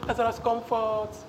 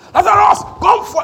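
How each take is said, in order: First: It is said softly and meekly. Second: It is screamed very loudly.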